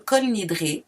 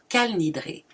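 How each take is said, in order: First: The first word has an 'o' vowel. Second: The first word has an 'a' vowel. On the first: "comme un O par les ashkénazes" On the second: "il se prononce Kal Nidré"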